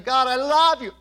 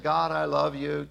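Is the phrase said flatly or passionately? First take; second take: passionately; flatly. First: It is said with strong, passionate feeling. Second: It is said flatly, without much feeling. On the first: The love is deep and heartfelt. The speaker calls it right. "Get passionate about it" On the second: The love is casual and half-hearted. The speaker calls it wrong. "Don't just say"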